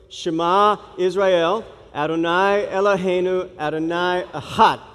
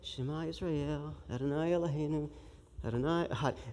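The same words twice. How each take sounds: First: It is said loudly, with passion. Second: It is said flatly, without much energy.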